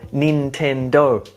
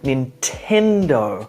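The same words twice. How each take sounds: First: All syllables get the same stress. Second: One syllable is stressed more strongly. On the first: The speaker calls it wrong. "or Nintendo equally" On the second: The speaker calls it right. "each having their own syllable stress or emphasis within the word"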